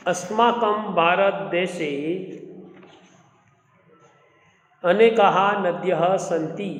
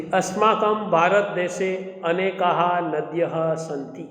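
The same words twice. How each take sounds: First: Very fast Sanskrit reading, in two breaths; fast recitation. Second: Fast, fluent Sanskrit reading; fast recitation. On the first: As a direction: read the line again, even quicker. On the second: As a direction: rattle off the Sanskrit sentence like a practiced reader. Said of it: "read the following paragraph with correct pronunciation". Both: Shown as a demonstration.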